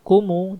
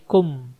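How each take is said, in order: First: The word ends with an added vowel sound. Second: The word ends on a closed consonant sound. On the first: The speaker calls it wrong. "jangan kumu" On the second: The speaker calls it right. "tapi kum"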